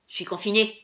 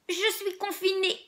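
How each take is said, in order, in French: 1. Ça se dit avec une voix rauque de pirate. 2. Ça se dit avec une voix tremblante de personne âgée. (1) "comme si on était un pirate" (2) "comme si on était très vieux"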